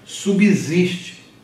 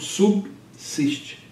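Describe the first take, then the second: First: The middle consonant sounds like a voiced z. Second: The middle consonant sounds like a voiceless s. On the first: The b is split into its own syllable. "as pessoas mentalmente falam subsiste" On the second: The b stays at the end of the first syllable. "do ponto de vista da manutenção do B em posição de coda"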